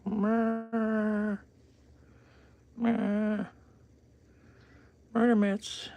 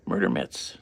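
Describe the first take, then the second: First: Very high whispered coo about the paws; stuttered high whisper of pet talk. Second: Said in the usual way. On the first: Real, not acted. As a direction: breathe it up high like teasing a kitten. Cooing at cat's paws.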